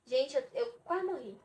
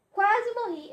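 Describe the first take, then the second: First: Said in the usual way. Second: Higher and louder on Quase morri; dramatic repeat, much higher and louder; emphatic exclaim. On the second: Real, not acted. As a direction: hit Quase morri as a pained outcry.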